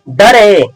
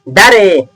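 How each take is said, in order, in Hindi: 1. पहला स्वर छोटा uh है। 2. पहला स्वर छोटा uh है।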